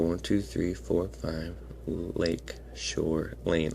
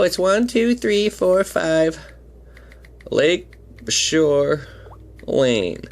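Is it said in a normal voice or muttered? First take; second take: muttered; normal. First: It is muttered quietly under the breath. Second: It is said in a normal speaking voice.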